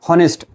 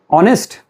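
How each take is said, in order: First: The word begins with a sounded H. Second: The word begins without any H sound. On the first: The speaker calls it wrong. "Don't say honest" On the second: The speaker calls it right. "H is silent"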